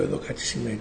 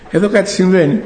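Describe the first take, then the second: First: Low, hushed and lower pitched; a hushed, awed murmur; hushed realization. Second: Said through a laugh, a bit louder; amused, excited announcement; laughing disbelief. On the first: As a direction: say it softly as it dawns on you. Finds second unexplained freezer package. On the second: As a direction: laugh out the discovery to your wife. Calls wife over, laughing in disbelief. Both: Retold or imitated.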